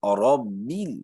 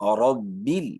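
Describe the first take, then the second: The two takes are said the same way.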